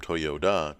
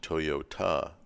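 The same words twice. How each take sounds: First: The name is said with a D sound. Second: The name is said with a T sound. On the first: The older form of the name. "the word Toyoda with a D" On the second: The newer form of the name. "Toyota with the T sound"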